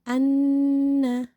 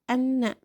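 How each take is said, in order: First: The nasal is held long with a nasal hum. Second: The nasal is short, without a held hum. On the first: The speaker calls it right. "tapi dibacanya anna. Masukkan ke rongga hidung karena punya sifat gunnah, dengung" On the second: The speaker calls it wrong. "jangan dibaca anna"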